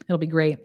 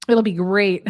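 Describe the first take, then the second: First: Said in the usual way. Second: It'll be great, said louder; the second, more emphatic take; louder repeat. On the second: Shown as a demonstration. To the host, repeating louder.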